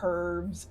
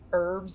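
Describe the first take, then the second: First: The word starts with an H sound. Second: The word starts without an H sound.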